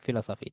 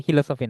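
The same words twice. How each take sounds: First: ফিলোসফি, opening "fi", not "hi"; corrected pronunciation. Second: হিলোসফি, opening "hi" in place of "fi"; common mispronunciation. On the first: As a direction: say ফিলোসফি with an f-like "ph" start. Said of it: "এটা কিন্তু পি উচ্চারণ হবে". (ফিলোসফি, শুরুতে "ফ" উচ্চারণ) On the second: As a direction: say হিলোসফি with an h at the start. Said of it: "এরকম ভুল অনেকে করে". (হিলোসফি, ভুল করে "হ" দিয়ে শুরু) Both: Shown as a demonstration.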